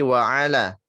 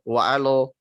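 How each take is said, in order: First: The l is thin with a clear a vowel. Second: The l is thick with an o-like vowel. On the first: The speaker calls it right. "tapi wa'ala" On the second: The speaker calls it wrong. "jangan wa'alallah wa'alo"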